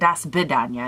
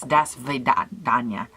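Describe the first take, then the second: First: It is said without a clear V sound. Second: It is said with a clear V sound. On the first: The speaker calls it wrong. "I've been saying it wrong all these years. It's not" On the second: The speaker calls it right. "with a V"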